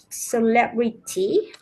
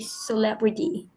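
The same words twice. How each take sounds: First: The T sound is pronounced strongly and clearly. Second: The T sound is pronounced softly and lightly. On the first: The speaker calls it wrong. "I could hear it very clearly" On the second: The speaker calls it right. "I don't think it's that, that strong. It should be celebrity"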